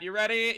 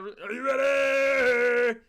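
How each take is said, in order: First: Said in the usual way. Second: Slow, stretched, louder and higher; drawn-out arena hype yell; hype announcer shout. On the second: Acted. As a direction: call it out like a ring announcer. Hyping up chat before game.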